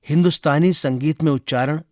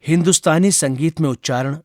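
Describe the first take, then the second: Both takes have the same delivery.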